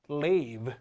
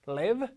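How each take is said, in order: First: Live said as leave, LEEV; long vowel. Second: Live as short LIV, rising; short vowel. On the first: Teacher contrasting vowels for students, live said as long leave. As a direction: lengthen live to leave, lower. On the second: Teacher contrasting vowels for students, live as short LIV. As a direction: keep live clipped and tune up. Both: Shown as a demonstration. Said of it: "소리가 길어져야 돼요".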